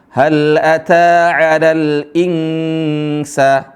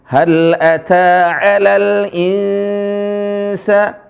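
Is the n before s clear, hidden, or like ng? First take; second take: ng; hidden. First: The n before s sounds like ng. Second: The n before s is softened and hidden. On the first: The speaker calls it wrong. "ini salah ya" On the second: The speaker calls it right. "Yang benar adalah suara nunnya tidak dijelas... tapi disamar"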